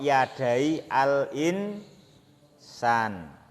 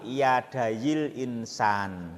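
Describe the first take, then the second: First: The words are separated with a stop between. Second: The words are run together without a break. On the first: "Kalau dibaca wakaf" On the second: "Kalau dibaca sambung"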